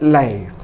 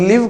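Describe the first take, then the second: First: The vowel is an 'ai' sound. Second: The vowel is a short 'i' sound. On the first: The speaker calls it right. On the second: The speaker calls it wrong. "அது லிவ் கிடையாது"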